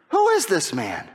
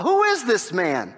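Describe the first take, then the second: First: "Who IS this man?" with the weight on "is", falling at the end; stress on is. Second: "Who is this man?" with WHO stressed, drawn out slowly; slow questioning. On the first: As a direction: push the word "is". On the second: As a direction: lean on "who", take it slow. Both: Shown as a demonstration.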